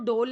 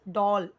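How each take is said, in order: First: The vowel sounds like 'oh'. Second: The vowel sounds like 'aw'. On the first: The speaker calls it wrong. "बहुत सारे लोग ना डॉल को डोल पढ़ते हैं, तो डोल नहीं है" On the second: The speaker calls it right. "डॉल जैसे हम बॉल बोलते हैं"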